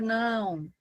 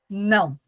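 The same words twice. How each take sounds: First: It is said in a calm, gentle tone. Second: It is said in a firm, decisive tone. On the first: The listener understands without feeling threatened. "mas você não vai se sentir ameaçado, agredido por aquilo" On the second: This marks a personal limit. "Esse aqui é o meu limite"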